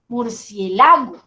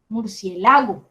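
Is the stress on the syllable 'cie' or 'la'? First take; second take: la; la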